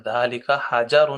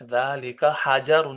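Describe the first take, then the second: First: حجر with a clear a on the jeem, a bit louder; confirming model reading; jeem with zabar again. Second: حجر said with a clear a on the jeem, slowly; slow model reading; jeem with zabar. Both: Shown as a demonstration. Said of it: "جیم پہ زبر، تلفظ ٹھیک کرنے".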